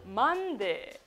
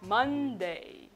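First: The final vowel is short and tense. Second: The final vowel is relaxed and drawn out. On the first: The speaker calls it wrong. "ただMonday じゃなくて" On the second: The speaker calls it right. "A と力を抜きながら最後伸ばしてください"

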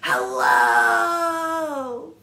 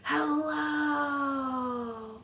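First: It is said very loudly. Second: It is said very quietly.

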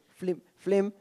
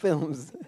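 First: The L comes before the vowel: flim. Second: The L comes after the vowel: film. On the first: The speaker calls it wrong. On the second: The speaker calls it right.

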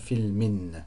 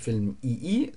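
First: The word ends in a vowel plus n. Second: The word ends in a bare vowel. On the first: The speaker calls it right. "sondern Filmin" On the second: The speaker calls it wrong. "ist es nicht Film-II"

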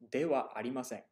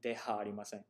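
First: The particle is pronounced with a w sound. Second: The particle is pronounced with an h sound. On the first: The speaker calls it right. "you have to pronounce it as wa" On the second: The speaker calls it wrong. "Why isn't it deha arimasen?"

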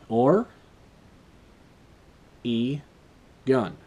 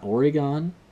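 First: The last syllable sounds like 'gun'. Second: The last syllable sounds like 'gone'. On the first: The speaker calls it right. "It's Or... gun. Just like I say" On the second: The speaker calls it wrong. "It's not Oregon"

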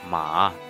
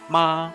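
First: The pitch dips low then rises. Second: The pitch stays high and level. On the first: "It's like very deep, low with high end" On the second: "the first one is like the high straight ma"

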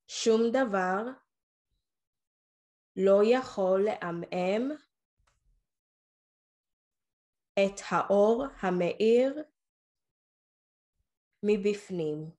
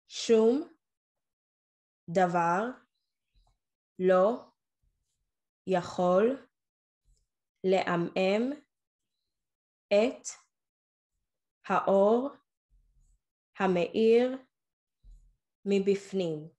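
First: There are pauses only after groups of words. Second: There is a pause after every single word. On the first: "I'll pause after every few words" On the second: "I'm going to pause after each word so that you can repeat it"

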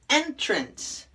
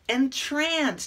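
First: The stress is on the first syllable. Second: The stress is on the second syllable. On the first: It names an opening into a place. "the opening to a place" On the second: It means to put someone in a trance. "to put somebody in a trance"

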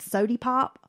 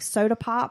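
First: The first word ends in an 'ee' sound. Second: The first word ends in an 'ah' sound. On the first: "might be called sody pop" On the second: "like soda pop"

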